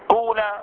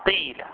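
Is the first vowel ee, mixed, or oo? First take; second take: oo; ee. First: The first vowel is a pure oo sound. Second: The first vowel is a pure ee sound. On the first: "إخلاص ضم أوله فيجب قلب الألف واو" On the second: "كسر ما قبل الألف فتنقلب الألف ياء"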